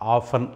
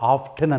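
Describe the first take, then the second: First: The t is silent. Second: The t is sounded. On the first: "తరచుగా దాన్ని మనం ఆఫన్ అంటాం" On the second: "లేదా ఆఫ్టెన్ అని కూడా అనొచ్చండి"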